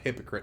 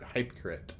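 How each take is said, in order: First: It sounds like the word hypocrite. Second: It sounds like two words, hype and crit. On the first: The speaker calls it wrong. "Not hypocrite" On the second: The speaker calls it right.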